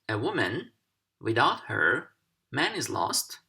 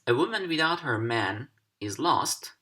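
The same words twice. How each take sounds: First: There is a pause between her and man. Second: There is no pause between her and man.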